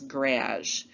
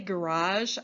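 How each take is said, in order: First: It is said with a Canadian pronunciation. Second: It is said with an American pronunciation. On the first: "I've seen Canadian friends pronounce this garage" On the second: "I say garage"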